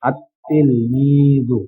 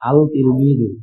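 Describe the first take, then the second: First: The l is silent and the t is doubled. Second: The article's l sound is clearly pronounced. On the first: The speaker calls it right. "লাম ছাড়া উচ্চারণ হয় আত তিলমিজু" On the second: The speaker calls it wrong. "কিন্তু এমন উচ্চারণ হয় না"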